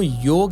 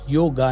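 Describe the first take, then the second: First: The word ends without a final vowel. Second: The word ends with a long 'aa' vowel. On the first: The speaker calls it right. "वो योग है" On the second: The speaker calls it wrong. "योगा नहीं है"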